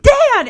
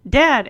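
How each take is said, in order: First: "Dad!" yelped much higher and louder; startled shout. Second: Said in the usual way. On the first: Retold or imitated. Rick caught out by his dad's call, startled shout. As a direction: blurt "Dad!" in alarmed surprise. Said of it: "And then he's like". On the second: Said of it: "and he's like".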